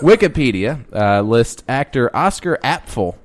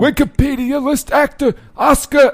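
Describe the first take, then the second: First: It is said in the speaker's normal voice. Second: It is said in an old grandpa voice.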